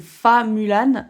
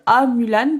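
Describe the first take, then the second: First: The name begins with an F sound. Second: The name begins with a plain vowel sound. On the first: It follows the Disney film. "dans le Disney c'est Fa Mulan" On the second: It follows the written spelling. "j'ai dit A Mulan parce que c'est H U A"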